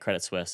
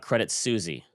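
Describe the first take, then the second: First: The second word sounds like 'Swiss', one syllable. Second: The second word sounds like 'Susie', two syllables. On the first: The speaker calls it right. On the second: The speaker calls it wrong.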